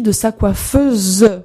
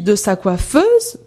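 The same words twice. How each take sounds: First: The final e of coiffeuse is pronounced. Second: The final e of coiffeuse is silent.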